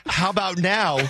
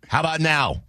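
First: A dry retold "How about now?" with a hint of a laugh; snarky jab. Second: A dry, pointed "How about now?"; snarky jab. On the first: Host retelling his jab at the producer, mild snark. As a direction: needle her again, half-amused. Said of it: "Just a jerk thing to say". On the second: Retold or imitated. Host needling his producer for a missed cue, snarky. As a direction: toss the line off with a curt edge. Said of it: "it was stupid aggressive".

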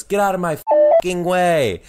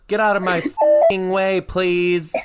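First: Put-on higher, louder rude kid demand; angry kindergartner. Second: Put-on high, loud kid demand with a tacked-on please; rude kid with a polite tag. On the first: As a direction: snap it like a cross little boy. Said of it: "he looks at me and goes". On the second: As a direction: bark it, then add please like a child. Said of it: "And he goes".

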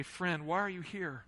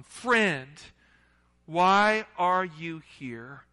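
First: Softer, gentle asking of the same words; soft question. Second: Loud, very slow, drawn-out plea to a friend; slow pleading call. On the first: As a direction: drop the voice and ask it tenderly. Jesus asking the congregation today. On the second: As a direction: stretch out each word like a wounded plea. Jesus pleading with Judas. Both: Acted.

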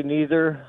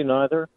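First: "neither" with a long ee up front; NEE-ther pronunciation. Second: "neither" with an eye sound up front; NYE-ther pronunciation. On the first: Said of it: "You say neither". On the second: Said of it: "I say neither". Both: Shown as a demonstration.

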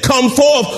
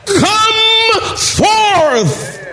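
First: Said in the usual way. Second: Much higher, drawn-out shouted command; booming call. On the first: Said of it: "had he just said". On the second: Retold or imitated. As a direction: raise the dead with it. Jesus calls Lazarus from tomb.

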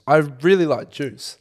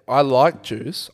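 First: "really" hit and drawn out, slow; slow, emphatic "really" in "I really like juice"; stress on really. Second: Slow, stressed "I like juice"; slow, emphatic "I" in "I like juice"; drawn-out emphasis on I. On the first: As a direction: punch "really", fall after it. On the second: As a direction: lean hard on "I", pulled out slowly. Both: Real, not acted.

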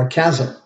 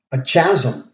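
First: "chasm" begun with a hard "k" sound; hard "k" at the start of "chasm"; alternative pronunciation. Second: "chasm" begun with a "ch" sound as in "chat"; alternative pronunciation. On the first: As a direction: say "chasm" as KAZ-um. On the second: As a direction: say "chasm" as CHAZ-um. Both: Shown as a demonstration. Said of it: "or however you pronounce it".

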